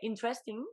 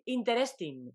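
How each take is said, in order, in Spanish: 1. Se dice con acento inglés. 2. Se dice con acento español. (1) "dice interesting, porque lo dice mejor" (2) "en lugar de decir interesting"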